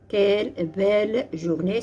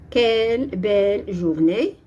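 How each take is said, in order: First: Said in the usual way. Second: Exclamative. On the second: Shown as a demonstration. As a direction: read "Quelle belle journée" as a delighted exclamation, stressing "quelle". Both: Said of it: "c'est une phrase exclamative".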